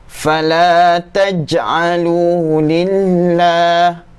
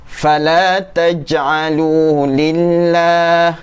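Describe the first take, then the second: No difference in how they are said.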